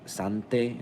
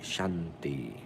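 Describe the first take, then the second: First: The name begins with an s sound. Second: The name begins with a sh sound. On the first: "like a saint" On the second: "like Shanti"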